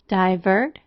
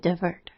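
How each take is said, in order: First: The first vowel is a full long i. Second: The first vowel is reduced to schwa. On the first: "making the vowel long" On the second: "Divert is also sometimes slightly schwa"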